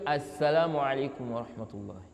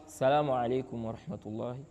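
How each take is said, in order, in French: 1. Il commence par le son d'article 'as-'. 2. Il commence directement par 'salam', sans son d'article. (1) "Tu n'enlèves pas le alif wa lam" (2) "Ça, c'est une erreur"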